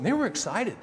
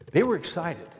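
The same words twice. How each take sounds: First: Excited. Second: Said in the usual way. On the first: Real, not acted.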